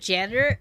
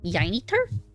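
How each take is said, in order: First: The word begins with a J sound. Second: The word begins with a Y sound.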